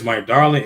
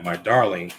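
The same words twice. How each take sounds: First: "darling" punched loud and firm; stress on darling. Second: Said in the usual way. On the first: Shown as a demonstration. Preacher to the congregation, leaning loud on "darling". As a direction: hit the word "darling" hard. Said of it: "When it says". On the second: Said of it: "When it says "my darling".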